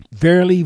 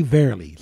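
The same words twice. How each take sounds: First: First "Verily" high and loud, ringing out; first verily emphasized. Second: Said in the usual way. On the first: Shown as a demonstration. Preacher booming the first "Verily" to the congregation. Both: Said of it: "it's a double".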